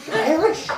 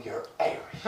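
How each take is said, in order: First: High-pitched mock astonishment; mock amazement. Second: Very soft, whispery mock amazement; hushed marvelling. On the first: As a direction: exclaim it high, like a thrilled stranger. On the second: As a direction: say it under your breath, as awed strangers. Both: People meeting him marvel at accent.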